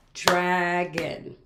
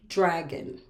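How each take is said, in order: First: "dragon" drawn out as draa-gon; syllable by syllable. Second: Said in the usual way. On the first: Shown as a demonstration. Teacher pointing out a two-syllable word, slowly split. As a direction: stretch both beats of "dragon". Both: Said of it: "That is a two-syllable word".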